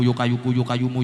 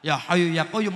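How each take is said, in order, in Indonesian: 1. Frasa itu dilafalkan dengan gaya Jawa. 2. Frasa itu dilafalkan dengan gaya Arab.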